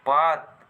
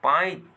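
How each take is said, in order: First: Said in the usual way. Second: पाइत with a firm aa-i glide before t; stressed i glide. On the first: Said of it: "बल कर प्रयोग करे". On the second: Shown as a demonstration. Teacher demonstrating stress to the class, stressed glide in पाइत. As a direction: lean into the इ in पाइत. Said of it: "पाइत कहल से एक तरह से बल कर प्रयोग".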